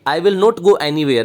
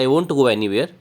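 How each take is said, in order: First: The words 'will not' are said in full. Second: The words 'will not' are contracted to 'won't'. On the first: "विल नोट" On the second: "shortcut में हम वोंट बोलते हैं"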